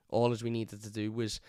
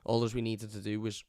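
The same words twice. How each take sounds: The two takes are said the same way.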